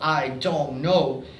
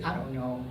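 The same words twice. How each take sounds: First: It has a British accent with strong consonants. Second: It has a relaxed American accent. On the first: "especially the T sound and the D sound in the British. It sounds like that. It's very strong" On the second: "in American English, you say"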